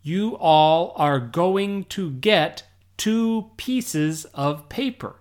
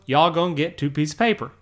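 First: Slow, word-by-word "You all are going to get two pieces of paper"; careful full pronunciation. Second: Fast, run-together "Y'all gonna get two pieces of paper"; casual Southern pronunciation. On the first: Teacher showing what was meant, careful full pronunciation. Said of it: "what I wanted to say was". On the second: Teacher showing what really came out, casual Southern pronunciation. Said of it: "What came out of my mouth was". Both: Shown as a demonstration.

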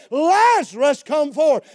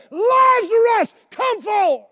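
First: Raised scripture quote, moderately forceful; preacher's measured calling voice; loud cry. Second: High, loud, drawn-out summons; booming preacher's command at full force; full-out shout. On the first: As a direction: call out as if summoning someone. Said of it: "he cried with a loud voice". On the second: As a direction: holler it across the whole area. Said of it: "expelled this out". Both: Retold or imitated.

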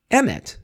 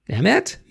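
First: EMET high, then falling sharply; EMET as a falling statement; stated word. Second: EMET rising high into a question; EMET as a high, rising query; questioning word. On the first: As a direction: state EMET with a firm drop at the end. Giving the Hebrew word as statement. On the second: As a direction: ask EMET with a steep upward lift. Same Hebrew word acted as reply. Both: Shown as a demonstration.

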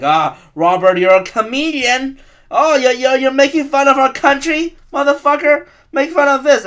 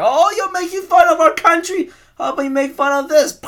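First: Loud and higher, a hammed-up patriot threatening the comedian; mock angry patriot. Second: Much higher, put-on voice, a sneering patriot taunting the comedian; mock patriot voice. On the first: Patriot threatening a comedian at a show, mock loud fury. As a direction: bark it like a furious flag-waver about to shoot. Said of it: "They're gonna be like". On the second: Gunman taunting the Daily Show guy, high cartoonish sneer. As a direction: squeak it out as a cartoonish vigilante. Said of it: "He's just like".

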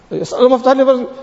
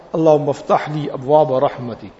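First: Gabbled fast and higher, no thought in it; rushed routine dua. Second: Mean every word as you say it; mindful dua. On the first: Worshipper rattling off the dua while greeting a friend, hurried. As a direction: toss it off quickly between greetings. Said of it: "So one is to ask him like that". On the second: Worshipper pausing at the masjid door to pray, sincere and unhurried. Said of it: "Let me read my dua". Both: Shown as a demonstration.

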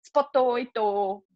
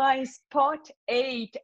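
First: "Spoto oito" slow, extra vowel after each word; imitating a Japanese controller saying "Spoto oito" slowly; Japanese-accented English. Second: "spot eight" slow and clean, no added vowels; imitating the controller correcting to "spot eight"; correct English. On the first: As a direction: mimic the pilot adding an O to "Spoto oito". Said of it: "Aí ele repetiu exatamente a mesma coisa". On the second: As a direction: finally say "spot eight" properly, slowly. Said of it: "E aí ele falou".

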